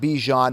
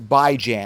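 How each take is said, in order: First: It starts with "bee" and ends like "john". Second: It starts with "bye" and rhymes with "ran". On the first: The speaker calls it wrong. "He's not French. It's not Bijan. There's no B E E and there's no J H O N" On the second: The speaker calls it right. "It's Bai-Jan, as in biweekly and ran"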